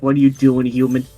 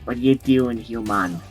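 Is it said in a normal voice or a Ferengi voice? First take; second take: normal; Ferengi. First: It is said in a normal voice. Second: It is said in a put-on Ferengi voice.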